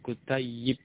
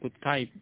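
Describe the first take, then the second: First: The middle y sound is held and doubled. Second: The middle y sound is short and single. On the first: The speaker calls it right. "Tetapi yang benar adalah kutayyibun" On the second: The speaker calls it wrong. "Jadi bukan kutayib"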